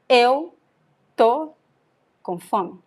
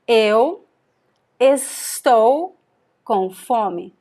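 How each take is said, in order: First: The verb is shortened to a single syllable. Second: The verb is said in its full form. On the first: "this is the reduction version" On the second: "another example"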